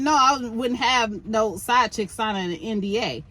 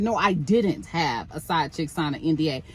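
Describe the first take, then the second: First: Said in the usual way. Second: "didn't" set apart and leaned on as the correction; stress on didn't. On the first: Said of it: "No, then he said". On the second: Retold or imitated. Host correcting the quote, stress on didn't. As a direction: hit "didn't" to fix the misquote. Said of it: "Not "I wouldn't have." He said".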